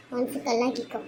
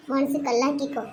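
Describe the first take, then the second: First: Softer, hushed repeat of மனசு கல்லாக்கிக்கோ. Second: Said in the usual way. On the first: Acted. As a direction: say கல்லாக்கிக்கோ quietly, almost to herself. Mother repeats advice softly. (மென்மையான மெல்லிய குரல்)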